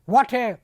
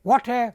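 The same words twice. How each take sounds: The two takes are said the same way.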